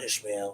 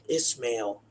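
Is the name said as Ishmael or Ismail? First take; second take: Ishmael; Ismail. First: The name is said as Ishmael. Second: The name is said as Ismail. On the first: The speaker calls it wrong. "not Ishmael" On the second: The speaker calls it right. "it's pronounced Ismail"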